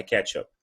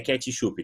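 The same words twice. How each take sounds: First: "ketchup" in two syllables, ending on p; correct English pronunciation. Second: "ketchup" as ke-chee-shoo-pee; Brazilian-accented "ketchup"; Portuguese-style mispronunciation. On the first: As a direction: say "ketchup" as ketch-up, no final vowel. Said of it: "É ketchup". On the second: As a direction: pad "ketchup" with extra i vowels. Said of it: "não é ketchup". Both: Shown as a demonstration.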